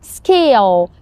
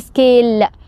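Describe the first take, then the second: First: The final L is dark, pronounced further back. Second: The final L is light, pronounced further forward. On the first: The speaker calls it right. "سامعين صوت الدارك ال يا جماعة؟" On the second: The speaker calls it wrong. "ما قلتش scale"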